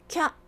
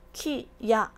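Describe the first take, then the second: First: It is said as one single beat. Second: It is said as two separate beats. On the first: The second kana is written small. "한 박이 되면서 요음 발음인 캬 라고 발음을 한다는 얘기입니다" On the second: The second kana is written full size. "이거는 이 박입니다. 두 박이에요"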